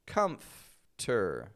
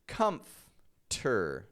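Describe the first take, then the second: First: The F goes straight to the T. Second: The F goes straight to the T.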